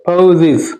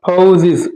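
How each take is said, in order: No difference in how they are said.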